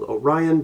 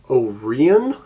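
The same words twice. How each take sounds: First: The name is said the usual, non-local way. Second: The name is said the way locals say it.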